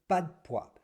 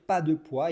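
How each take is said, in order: First: The vowel of 'de' is dropped, only 'd' remains. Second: The vowel of 'de' is fully pronounced. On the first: "On prononce le D, hein, mais on ne prononce pas le" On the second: "Il ne va pas dire pas de poids"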